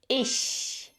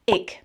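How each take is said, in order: First: The ch is a soft hiss through the teeth. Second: The ch is not a soft hiss through teeth. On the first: The speaker calls it right. "pull your lips to the side and then press air through a tiny gap between your teeth" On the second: The speaker calls it wrong. "So it's not ich"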